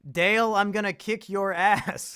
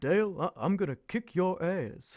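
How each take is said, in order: First: It is said in his own normal voice. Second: It is said in a Hank Hill voice.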